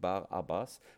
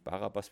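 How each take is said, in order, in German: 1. 'Bar' wird von 'abbas' getrennt gesprochen. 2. Der Name wird als ein Wort zusammen gesprochen. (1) "sondern Barabbas. Bar heißt Sohn und Abba ist der Vater" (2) "nicht Barabbas, wie man es oft sagt"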